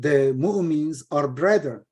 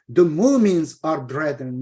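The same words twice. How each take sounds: First: The stress falls on the word brethren. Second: The stress falls on the word mu'mins. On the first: The believers are brothers to one another. The speaker calls it right. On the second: Only the believers can be brothers. The speaker calls it wrong.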